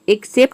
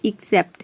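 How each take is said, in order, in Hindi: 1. शब्द 'eh' स्वर से शुरू होता है। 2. शब्द 'ee' स्वर से शुरू होता है। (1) "ये एक्सेप्ट नहीं होता है" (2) "ये होता है एक्सेप्ट"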